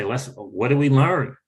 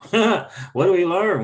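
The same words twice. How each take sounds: First: Said in the usual way. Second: Higher and slower, with a laugh; slow laughing repeat. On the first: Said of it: "take ownership and say". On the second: Retold or imitated. Repeating his own question to viewers, laughing slowly. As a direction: lean into the question with a chuckle.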